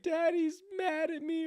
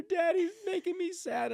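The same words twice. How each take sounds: First: Put-on very high, slow child's whimper; sad little daughter. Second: Sad little daughter. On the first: Dad imagining his daughter's words, in a very high slow child voice. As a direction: plead like a hurt toddler. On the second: Retold or imitated. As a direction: whimper it like a hurt toddler. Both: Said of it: "my daughter be like".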